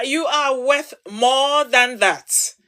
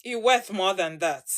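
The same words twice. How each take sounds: First: Slow, stressing than; measured sincere emphasis; slow emphatic reassurance. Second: Softer, lower sincere words; tender reassurance to the women watching. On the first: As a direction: drive the point home. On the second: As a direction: comfort her gently. Soft reassurance after urging. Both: Real, not acted.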